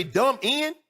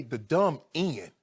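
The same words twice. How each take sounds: First: "dumb end" pitched high and loud with a rising question tone; loud, disbelieving repeat of "dumb end"; incredulous echo. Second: "The dumb end" said slowly, each word dragged out in disgust; slow, scornful echo of "The dumb end"; slow mocking repeat. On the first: Retold or imitated. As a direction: throw "dumb end" back at him in disbelief. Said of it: "you gonna say". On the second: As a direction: drag "dumb end" out as if it tastes bad. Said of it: "For him to say".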